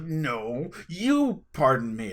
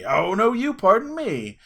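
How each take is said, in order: First: Slow, playful challenge on "you"; mock fighting. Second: High, loud, drawn-out comeback; escalated mock fighting. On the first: Two laughing strangers squaring up over manners, mock combative. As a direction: square up in jest, drawing out the words. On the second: Laughing stranger fires back over manners, mock outraged. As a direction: top the challenge, pitched up and louder. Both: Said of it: "we put our dukes up".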